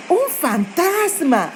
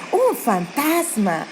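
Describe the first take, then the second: First: Higher, slow scared cry of ghost; frightened cry. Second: Softer repeated cry. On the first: Disciples in the boat see a ghost, crying out in fright. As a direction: voice the disciples' first panicked shout. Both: Retold or imitated. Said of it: "empezaron a gritar y decían".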